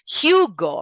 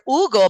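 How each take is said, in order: First: The name is said with English pronunciation. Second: The name is said with Spanish pronunciation. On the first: The speaker calls it right. "the pronunciation in English is Hugo" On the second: The speaker calls it wrong. "we say here Hugo"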